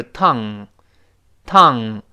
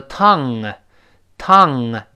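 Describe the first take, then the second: First: "tongue" held closed on the NG; unreleased NG. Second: "tongue" with an audible release after NG; released NG. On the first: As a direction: end "tongue" without opening the throat. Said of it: "你喉咙不分开". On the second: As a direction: let "tongue" pop open into a tiny "uh". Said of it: "最后分开的时候有个声音". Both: Shown as a demonstration.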